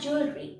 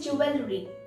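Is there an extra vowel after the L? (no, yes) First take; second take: no; yes. First: There is no extra vowel after the L. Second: There is an extra vowel after the L. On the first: The speaker calls it right. "in this the E is silent" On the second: The speaker calls it wrong.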